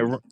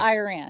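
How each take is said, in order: First: The name is said the way Iranians say it. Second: The name is said the American way. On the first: The speaker calls it right. "we say" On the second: The speaker calls it wrong. "don't say Iran. ... you sound like George W. Bush"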